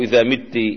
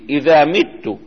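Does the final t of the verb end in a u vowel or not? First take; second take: not u; u. First: The final t has a vowel other than u. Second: The final t is followed by a u vowel. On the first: The listener is the one who dies. The speaker calls it wrong. "مو إذا مت" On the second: The speaker is the one who dies. The speaker calls it right. "حرك هذه التاء بالضمة"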